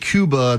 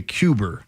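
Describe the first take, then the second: First: The word ends in a plain vowel. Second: The word ends with an added R sound. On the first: "instead of saying Cuba" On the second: "they say Cuber"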